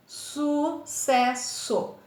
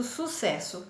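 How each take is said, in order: First: SU - CES - SO, very slow with long gaps; teacher sounding out SU-CES-SO; split into syllables. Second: Said in the usual way. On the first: Shown as a demonstration. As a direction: say sucesso in three slow pieces, SU, CES, SO. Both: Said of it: "separa os dois S's".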